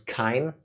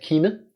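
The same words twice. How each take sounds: First: The name is read with English spelling rules. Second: The name is read with German spelling rules. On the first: "now reading this in English, I'm thinking it's" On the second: "As a German little boy, I always said"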